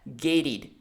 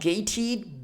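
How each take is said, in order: First: The middle consonant is a soft D sound. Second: The middle consonant is a crisp T sound. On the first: The speaker calls it right. "you just have to transform the T sound into a D sound" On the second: The speaker calls it wrong. "So not gated"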